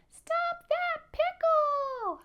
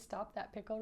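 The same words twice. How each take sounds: First: Very high, loud, stretched peep; little almond voice. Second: Said in the usual way. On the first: Shown as a demonstration. Showing children the little almond voice, high drawn-out peep. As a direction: squeal it as a tiny almond. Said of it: "in a little almond voice".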